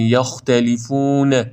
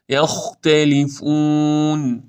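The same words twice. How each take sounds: First: یختلفون with an extra "ne" ending; released, wobbling final n in یختلفون; wrong bounced ن. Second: Slow یختلفون closed on a held n; drawn-out, motionless final n in یختلفون; correct still ن. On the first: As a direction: say یختلفون as "yakhtalifune". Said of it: "این اشتباهه". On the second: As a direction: end یختلفون on "fuunn" with no vowel. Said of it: "این درسته". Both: Shown as a demonstration.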